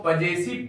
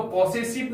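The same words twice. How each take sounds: First: पजेसिव with a short "pa" and a "z" sound, pəzesɪv; correct pronunciation. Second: पॉसेसिव with an open "paw" and hard "s" sounds, pɔːsesɪv; wrong pronunciation. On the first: Teacher telling children the right way, पजेसिव said "pa-ze-siv". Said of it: "इसको पजेसिव पढ़ेंगे". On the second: Teacher showing children the pronunciation to avoid, पॉसेसिव said "paw-se-siv". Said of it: "इसको पॉसेसिव नहीं पढ़ेंगे". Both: Shown as a demonstration.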